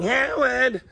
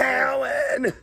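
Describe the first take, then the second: First: Higher call of Howard!, mother from Big Bang; Mrs. Wolowitz. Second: A nasal-free but higher shrill-style call of Howard! up high; Mrs. Wolowitz. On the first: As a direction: holler Howard! up the stairs. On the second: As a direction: yell Howard! like a New York mom. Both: Retold or imitated. Imitating Mrs. Wolowitz calling her son, higher. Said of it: "That's what I sound like".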